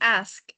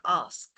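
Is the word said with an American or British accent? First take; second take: American; British. First: It is said with an American accent. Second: It is said with a British accent.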